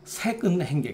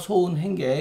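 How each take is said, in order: First: The first syllable is pronounced saek. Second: The first syllable is pronounced so. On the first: This is the reading given in the classical commentary. "마땅히 색으로 써야 한다" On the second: This reading follows a different interpretation with another meaning. "이건 그렇지 않다"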